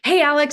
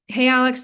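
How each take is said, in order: First: It sounds upbeat and eager. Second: It sounds bored and uninterested.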